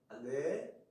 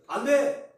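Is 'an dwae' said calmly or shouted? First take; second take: calmly; shouted. First: It is said calmly in a soft, warm tone. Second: It is shouted loudly and sharply. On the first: It is a mild, unconcerned refusal. The speaker calls it wrong. "침착하게 따뜻하게 또 자상한 말투로" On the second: It is an urgent warning of danger. The speaker calls it right. "소리를 질러요"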